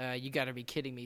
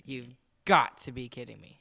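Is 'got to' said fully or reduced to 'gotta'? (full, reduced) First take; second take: reduced; full. First: 'Got to' is reduced to 'gotta'. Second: 'Got to' is said as two full words. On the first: The speaker calls it wrong. "You said it wrong" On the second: The speaker calls it right. "That's a little better"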